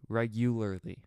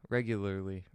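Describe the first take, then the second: First: Every syllable is clear, with a full U sound. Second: The syllables run together and the U is lost. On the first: The speaker calls it right. "if I really pronounce that U, it's not hard to say" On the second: The speaker calls it wrong. "I just kind of mash it together"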